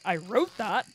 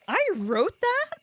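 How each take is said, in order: First: It sounds flat, disgusted and disappointed. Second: It sounds amazed and impressed, in disbelief. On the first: The writing seems terrible. "That is shit" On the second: The writing seems too good to be one's own. "That's too good for something I could write"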